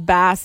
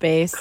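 First: The vowel is short, rhyming with 'class'. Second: The vowel is long, rhyming with 'face'. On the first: The speaker calls it right. "it's bass instead of" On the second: The speaker calls it wrong. "instead of bass"

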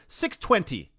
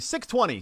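First: The T in twenty is clearly pronounced. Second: The T in twenty is dropped. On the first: "you very deliberately go 620. You really you hit the T in your 20" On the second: "I would say 620 CKRM"

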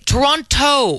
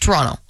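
First: The second T is pronounced hard. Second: The second T is dropped. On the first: The speaker calls it wrong. "they punch that T like it's the hardest syllable in the world" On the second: The speaker calls it right. "you don't say that second T"

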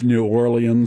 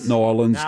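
First: The name is said fully with separate syllables. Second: The name is squeezed into two short syllables. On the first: The speaker calls it right. "It's New Orleans" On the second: The speaker calls it wrong. "Not Nollins. Don't say that. You sound like a"

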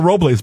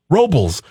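First: The name is pronounced with Spanish sounds. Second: The name is pronounced with English sounds. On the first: This is the technically correct form. "technically, it is Paso Robles" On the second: This is how local residents say it. "everyone locally says Robles"

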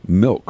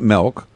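First: The vowel sounds like 'i', as in 'milk'. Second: The vowel sounds like 'e', as in 'melk'. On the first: The speaker calls it right. "With an I" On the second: The speaker calls it wrong. "not an E"

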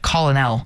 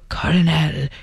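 First: The word is said with an L sound. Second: The word is said with an R sound. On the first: "instead of colonel" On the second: "we like the sound of the R. It sounds prettier. So colonel, it is"

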